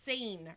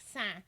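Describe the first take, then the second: First: Seine is said with an American English pronunciation. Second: Seine is said with a French nasal vowel. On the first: "or whatever we say in America" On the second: "I will pronounce things the correct way in French"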